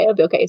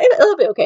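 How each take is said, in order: First: Lower, softer repeat to oneself; quieter reassurance. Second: Higher, quick self-reassurance; reassuring myself. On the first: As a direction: settle yourself down, almost under your breath. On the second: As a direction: talk yourself into calm, a little nervous. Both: Retold or imitated. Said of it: "I thought".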